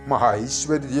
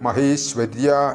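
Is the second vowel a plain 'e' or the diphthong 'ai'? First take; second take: ai; e. First: The second vowel is the diphthong 'ai'. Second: The second vowel is a plain 'e' sound. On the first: The speaker calls it right. "മഹൈശ്വര്യ എന്ന് തന്നെ വരണം" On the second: The speaker calls it wrong. "മഹേശ്വര്യ എന്ന് ചൊല്ലിപ്പോകരുത്"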